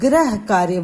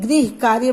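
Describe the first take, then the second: First: The first syllable is said as gra. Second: The first syllable is said as gri. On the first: It sounds like planet work. The speaker calls it wrong. "ग्रह कार्य बोल देते हैं, जो बिल्कुल गलत है" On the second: It means household work. The speaker calls it right. "गृह कार्य बोला जाता है"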